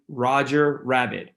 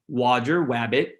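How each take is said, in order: First: The second word begins with an r sound. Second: The second word begins with a w sound. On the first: The speaker calls it right. "instead of saying Roger Rabbit" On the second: The speaker calls it wrong. "You'll get a W"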